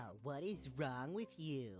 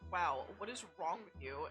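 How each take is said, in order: First: It is said in a nasal, mocking voice. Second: It is said in a normal voice.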